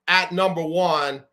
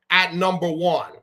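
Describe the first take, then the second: No difference in how they are said.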